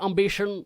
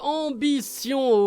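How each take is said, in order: First: It is said with an English pronunciation. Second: It is said with a French pronunciation.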